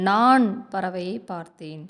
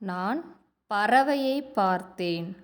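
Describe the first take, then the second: First: The first word carries the stress. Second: The middle word carries the stress. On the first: It answers who saw the bird. "நான் அப்படிங்கிற சொல்லுக்கு நம்ம அழுத்தம் கொடுக்குறோம்" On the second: It answers what was seen. "பறவையை அதை வந்து நம்ம அழுத்தம் கொடுக்குறோம்"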